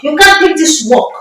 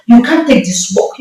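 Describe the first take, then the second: First: Pitched up high on the repeat; raised repeat. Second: Said in the usual way. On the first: Retold or imitated. Spirit's warning in the dream, pitched up high. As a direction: push the warning up higher.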